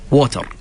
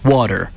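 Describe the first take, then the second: First: The T is a clear T, R rolled. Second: The T sounds almost like a D. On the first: The speaker calls it wrong. "they pronounce the R as a ra بالعربي, and uh, the t, a T as a T" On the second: The speaker calls it right. "in the perfect accent, it's almost pronounced D"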